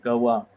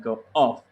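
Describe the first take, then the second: First: The two words are linked smoothly together. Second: The two words are said separately, unlinked.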